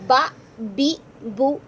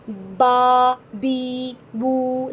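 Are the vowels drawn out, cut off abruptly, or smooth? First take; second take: abrupt; drawn out. First: The vowels are cut off with a jerk. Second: The vowels are stretched out long. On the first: "ये नहीं करना, झटका दे के हो जाएगा" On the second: "लंबा लंबा करके"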